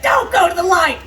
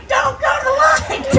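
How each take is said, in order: First: Yelling at it. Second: Higher desperate yell. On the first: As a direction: yell it like a desperate plea. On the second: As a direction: push it up into a frantic shriek. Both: Retold or imitated. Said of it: "I yell at it".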